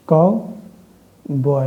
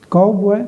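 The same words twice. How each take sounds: First: cowboy drawn out very slowly, काउ leaned on; stress on COW. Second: Said in the usual way. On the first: Shown as a demonstration. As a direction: stretch cowboy, weight on काउ. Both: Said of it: "काऊ पे".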